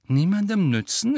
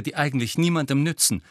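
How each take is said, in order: First: Strained, high echoed question; tense, indignant query. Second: Scornful, higher and quick dismissal; disdainful, falling at the end; contemptuous. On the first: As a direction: throw the words back, tense and rising. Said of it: "entgegnete Ron mit angespannter Stimme". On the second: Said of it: "sagte Hermine verächtlich". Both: A narrator's reading.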